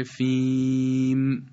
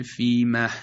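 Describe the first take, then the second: First: فیم ending on a bare, silent م; فیم ساکن بدون های آخر; stop by sukun. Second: فیمه ending with an added breathy ه; فیمه با های سکت; stop with an added h. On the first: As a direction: stop the word flat on its final م. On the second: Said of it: "به صورت الحاق وقف کنیم". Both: Shown as a demonstration.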